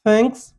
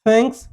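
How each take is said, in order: No difference in how they are said.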